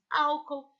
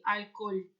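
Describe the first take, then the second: First: Álcool with stress on the first syllable, AW-kol; Portuguese pronunciation. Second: Álcool with stress on the o, Spanish al-COL; Spanish pronunciation. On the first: Teacher showing class the Portuguese Álcool, stress on first syllable. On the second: Teacher reading Álcool as Spanish for class, al-COL. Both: Shown as a demonstration. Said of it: "Como seria álcool em português?".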